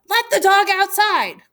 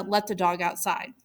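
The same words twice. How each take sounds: First: Higher and louder, a lightly acted yell; mock hurried yell. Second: Said in the usual way. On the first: Teacher voicing Joseph yelling to Gianna while late, mock yell. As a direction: call it out as if running late. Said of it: "Running late, Joseph yells to Gianna". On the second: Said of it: "yells to Gianna".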